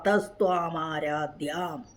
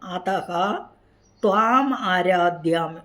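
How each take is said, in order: First: The first word runs straight into the next word. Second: The first word is split off with an added vowel.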